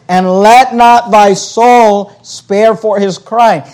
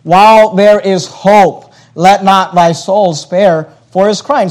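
First: Every word of "And let not thy soul spare for his crying" slowed and weighted; solemn preacher pressing each word of the verse; slow emphatic scripture reading. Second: Said in the usual way. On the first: Shown as a demonstration. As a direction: lean on "let not" and draw the verse out slowly. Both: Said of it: "Notice these words".

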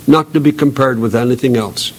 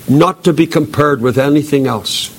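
No difference in how they are said.

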